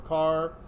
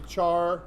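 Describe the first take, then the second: First: It begins with a k sound, like character. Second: It begins with a ch sound, like charring. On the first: The speaker calls it right. "I like saying car because it's like coming from character" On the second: The speaker calls it wrong. "I don't like char. It's not like I'm charring anything"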